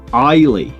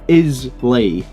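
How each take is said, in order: First: The S is silent in the middle. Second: The S is sounded in the middle. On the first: The speaker calls it right. "but it's pronounced Islay" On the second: The speaker calls it wrong. "so it looks like Islay"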